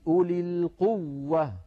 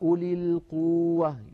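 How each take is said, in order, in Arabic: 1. يُضغط على الحرف المضعّف بتشديد واضح. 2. يُنطق الحرف المضعّف بخفّة دون ضغط. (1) "بين التشديد" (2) "لو قلنا أولي القوة"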